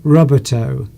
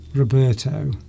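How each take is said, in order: First: It is said as English words rubber toe. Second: It is said as the Italian name Roberto. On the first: The speaker calls it right. "Is how I should pronounce that" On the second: The speaker calls it wrong. "Roberto is a name, and I think it's an Italian name"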